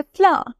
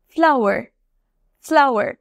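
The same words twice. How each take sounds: First: ফ্লাওয়ার smoothed into one long r-less syllable; UK pronunciation. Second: ফ্লাওয়ার in two syllables with r sounded at the end; US pronunciation. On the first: Teacher showing two ways to say flower, UK pronunciation. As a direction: say ফ্লাওয়ার the British way, "flah" with silent r. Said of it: "যেটা হলো UK pronunciation". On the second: Teacher showing the other way to say flower, US pronunciation. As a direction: say ফ্লাওয়ার the American way, "flau-er". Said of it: "এটা হলো US pronunciation". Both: Shown as a demonstration.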